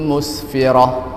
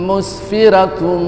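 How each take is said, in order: First: The word ends softly in an h sound. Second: The word ends in -tun, running into the next. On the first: The reciter stops after this word. "ketika kita berwakaf, ... tetap dibaca seperti ha" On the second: The reciter carries on into the next word. "Kalau dilanjutkan"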